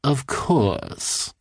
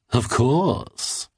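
First: Lightly voiced odd man, courteous; a hint of a smug stranger bowing; polite bow. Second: Lightly voiced odd man, rising confidently; a hint of a smug stranger; smug reply. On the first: Odd man bowing to the cartoonist, lightly courteous. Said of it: "the man said with a bow". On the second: Odd man answering the cartoonist about his tonic, smug. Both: A narrator's reading.

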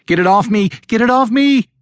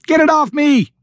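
First: High-pitched, frantic shriek; panicked shriek. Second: Very high-pitched frantic scream; panicked scream. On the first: Jennifer with the dog's paws on her, shrieking. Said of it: "Jennifer shrieked". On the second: Jennifer panicking at Alan's lack of response, screaming. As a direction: scream it higher, at peak panic. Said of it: "she screamed louder". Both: A narrator's reading.

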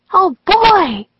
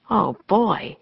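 First: Loud, very high excited exclamation; Annie. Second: Dismayed inner thought, much less excited; Jack. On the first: Annie thrilled to go with the ninjas, high excited cry. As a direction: burst out thrilled, voice leaping up. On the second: Jack wondering if Annie is nuts, dismayed aside. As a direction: think it with a mild groaning dismay. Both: A narrator's reading.

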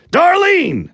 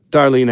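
First: Long high yell of her name; calling out. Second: Said in the usual way. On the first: Acted. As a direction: holler the name into the house. Husband calls wife from door.

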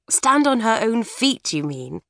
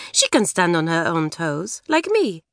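First: "Stand on her own feet" said as the correct saying, Stand stressed; "feet" clearly said to fix "toes". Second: Put-on French accent. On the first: Acted. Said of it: "You'll never get those English sayings right".

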